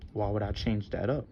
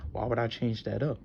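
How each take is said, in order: Both takes have the same delivery.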